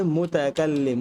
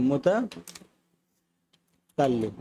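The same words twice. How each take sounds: First: Said in the usual way. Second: মুতাকাল্লিম drawn out very slowly, ল্লি and ম held; slow syllable drill. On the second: Shown as a demonstration. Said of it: "এটাকে বলে মুতাকাল্লিম".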